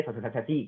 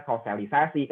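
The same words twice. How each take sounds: First: "sosialisasi" rushed and garbled into sosasasati; fast, muddled "sosialisasi" with swallowed syllables; tongue-tied slip. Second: Said in the usual way. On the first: Shown as a demonstration. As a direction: trip over the syllables of "sosialisasi". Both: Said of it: "kan belibet jadi sosialisasi".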